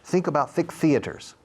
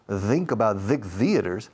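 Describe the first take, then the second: First: The th sounds are soft and voiceless. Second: The th sounds are buzzing and voiced. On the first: "Eso es T H suave" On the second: "la T H vibrada"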